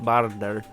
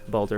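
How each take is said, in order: First: The name is not said like Baldur's Gate. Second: The name is said like Baldur's Gate. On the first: The speaker calls it wrong. "I'm pronouncing it Bardar" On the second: The speaker calls it right. "like Baldur's Gate"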